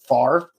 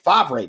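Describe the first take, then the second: First: The R sound comes before the V sound. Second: The R sound comes after the V sound. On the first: The speaker calls it wrong. "flies in the face of, like, the order of letters" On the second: The speaker calls it right. "no, it's Favre, buddy"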